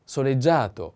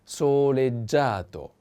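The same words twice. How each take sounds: First: Said in the usual way. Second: Soleggiato drawn out, so-led-JA-to, stress on the a; slow soleggiato down for learners; slow model word. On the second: Shown as a demonstration. Teacher modelling the word slowly for students. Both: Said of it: "The accent is on A".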